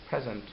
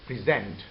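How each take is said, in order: First: The stress is on the first syllable. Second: The stress is on the second syllable. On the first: It is a noun meaning a gift. "When the first syllable is stressed, it becomes present" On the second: It is a verb. "when we shift the stress of the breath from pre to zent, it becomes present"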